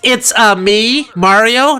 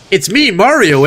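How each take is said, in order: First: It is said in an Italian accent. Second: It is said in a Canadian accent. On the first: "not it's me, Mario, eh?" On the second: "the Canadian version of Mario"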